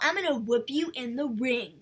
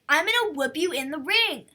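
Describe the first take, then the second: First: It is said flatly, with little energy. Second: It is said forcefully, with much energy. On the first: The threat falls flat. The speaker calls it wrong. "She was like" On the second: The threat gets the point across. The speaker calls it right. "she should have been like, ... to get her point across"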